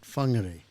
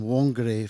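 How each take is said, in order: First: The name begins with an F sound. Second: The name begins with a W sound.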